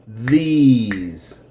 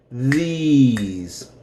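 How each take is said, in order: Both takes have the same delivery.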